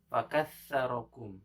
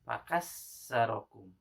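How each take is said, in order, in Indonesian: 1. Konsonannya adalah 'th' seperti dalam 'thin'. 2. Konsonannya adalah bunyi 's' yang biasa. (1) "kalimat fakassarakum" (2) "harusnya sa menjadi sin. Nah, itu kesalahan yang jali"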